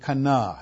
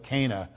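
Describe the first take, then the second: First: The name has a non-English, original pronunciation. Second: The name has an English, anglicized pronunciation. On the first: The speaker calls it right. "That's the right pronunciation" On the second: The speaker calls it wrong. "give the anglicized version of it"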